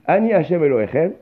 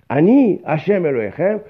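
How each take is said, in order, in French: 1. Il n'y a pas de pause après le premier mot. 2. Il y a une pause après le premier mot.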